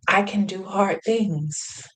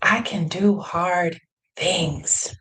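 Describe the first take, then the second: First: Said in the usual way. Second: "I can do hard things." said very slowly, each word weighed; slow deliberate mantra. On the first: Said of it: "but I was speaking to her". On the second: Shown as a demonstration. Repeating her words to herself, slow and deliberate. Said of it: "I was also speaking to myself".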